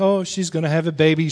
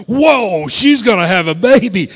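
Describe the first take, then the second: First: Said in the usual way. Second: Loud, astonished whoa; amazed reaction. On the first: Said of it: "you look at her back and you're like". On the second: Acted. Onlooker sees pregnant wife turn sideways, astonished. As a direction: burst out in mock amazement. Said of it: "She turns sideways and you're like".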